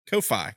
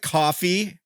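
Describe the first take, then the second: First: The word ends with a 'fie' sound. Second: The word ends with a 'fee' sound. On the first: "like lo-fi" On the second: "it doesn't look like coffee"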